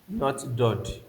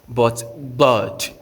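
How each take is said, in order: First: The first consonant is a plain, light d. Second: The first consonant is a heavy, emphatic d. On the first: The speaker calls it wrong. "not like D" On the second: The speaker calls it right. "the translation is like D H"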